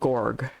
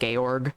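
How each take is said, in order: First: The name is said the nickname way. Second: The name is said the official intended way. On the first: It is a playful name because it is large. "I call this thing Gorg because it's just large" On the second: This is how the makers want it said. "I know they want you to pronounce it Georg"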